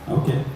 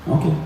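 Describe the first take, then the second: Both takes have the same delivery.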